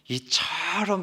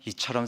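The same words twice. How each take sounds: First: The word is said with strong, lively emphasis. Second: The word is said flatly, without emphasis. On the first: The love sounds immense. The speaker calls it right. "이렇게 말을 해야 됩니다" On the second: The love sounds ordinary and small. The speaker calls it wrong. "이렇게 밋밋하게 말해서는 안 됩니다"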